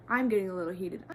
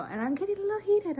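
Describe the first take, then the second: First: Said in the usual way. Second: Higher, fast, giggly apology; embarrassed squeal. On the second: Real, not acted. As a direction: squeak it out sheepishly.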